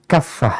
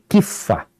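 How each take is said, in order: First: The first vowel is an 'a' sound. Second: The first vowel is an 'i' sound. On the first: "di sini kafah ya" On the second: "kifah dengan kasrah"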